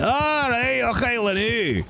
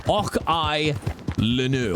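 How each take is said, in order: First: High, exclaimed broad Scots; hammed-up Scottish accent. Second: Non-Scottish English accent, carefully spaced; English-accented reading of a Scots phrase; Anglo-Saxon way. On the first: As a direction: belt out the phrase like a caricature Scot. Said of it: "My Scottish accent's getting really good". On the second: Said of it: "I'll say it in, in a very Anglo-Saxon". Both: Shown as a demonstration.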